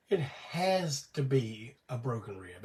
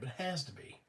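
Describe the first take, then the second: First: It has to be a broken rib, slowed and leaned on; slow insistence. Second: Much softer repeat of it has to be, trailing down; quiet echo. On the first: Telling viewers his own diagnosis, slow and insistent. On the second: Repeating his own diagnosis to viewers, softly to himself. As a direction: say it has to be to yourself, under the breath. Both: Real, not acted.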